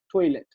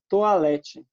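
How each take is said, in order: First: It is pronounced the English way. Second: It is pronounced the Portuguese way. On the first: "Em inglês, por exemplo, eles vão falar toilet" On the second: "olha só o jeito como a gente fala"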